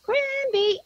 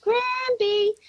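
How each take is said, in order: First: High, sing-out two-note holler; yelled call. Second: High, thin echoing call; child yelling back. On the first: Grandmother showing child what to yell, high drawn-out call. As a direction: stretch the name out as a high call. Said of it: "So I yelled out". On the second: Granddaughter answering her grandmother, high yelled reply. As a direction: imitate a child's long high holler. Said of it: "she yelled back". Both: Retold or imitated.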